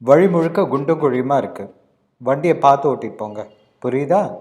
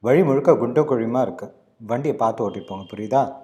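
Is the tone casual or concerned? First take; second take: concerned; casual. First: It is said in a concerned, earnest tone. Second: It is said in a normal, casual tone.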